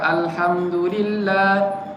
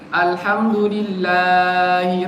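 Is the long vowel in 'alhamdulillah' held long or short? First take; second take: short; long. First: The long vowel is held for only two beats. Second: The long vowel is stretched well beyond two beats. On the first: The speaker calls it right. "untuk menjadikan dua ketukan hanya dikalikan dua, maka alhamdulillah cukup" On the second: The speaker calls it wrong. "walaupun matnya di situ hanya dua ketukan, dia dibaca panjang"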